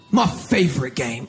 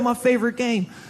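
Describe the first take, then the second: First: It is said in a dark, ominous tone. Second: It is said in a light, casual tone.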